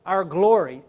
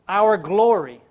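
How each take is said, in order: Both takes have the same delivery.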